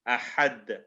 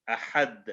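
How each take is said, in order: First: The final consonant is released with an echoing bounce. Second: The same.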